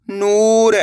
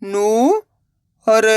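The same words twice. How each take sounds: First: नूर joined, long ऊ; blended word. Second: नू, long pause, र; नूर split slowly, rising first syllable. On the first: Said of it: "तो मिलके बन जाएगा". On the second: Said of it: "एक अक्षर का उच्चारण करना है". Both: Shown as a demonstration.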